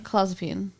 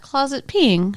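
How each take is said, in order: First: It is said as the drug name clozapine. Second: It is said like the words closet peeing. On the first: The speaker calls it right. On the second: The speaker calls it wrong. "Not closet peeing"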